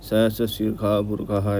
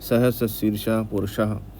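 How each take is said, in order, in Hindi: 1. purusha का बीच का व्यंजन kh जैसा सुनाई देता है। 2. purusha का बीच का व्यंजन sh जैसा सुनाई देता है। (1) "कई लोग इसको शाह को खा भी प्रोनाउंस करते हैं" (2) "ये शाह प्रोनाउंसिएशन रहेगा तो बेटर रहता है"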